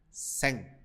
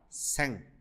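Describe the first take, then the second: The two takes are said the same way.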